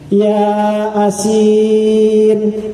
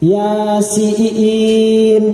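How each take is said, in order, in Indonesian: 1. Dibagi menjadi dua kata, ya asin. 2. Diucapkan sebagai satu kata, Yasin. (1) "dia lihat itu huruf Latin, akhirnya dia baca ya asin" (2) "baca yang betul tuh begini"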